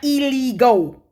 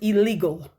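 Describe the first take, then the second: First: The word ends with a 'go' sound. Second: The word ends with a plain 'gul' sound. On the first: The speaker calls it wrong. "not illegal. It sounds like she's saying, let go my ego" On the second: The speaker calls it right. "The word is illegal"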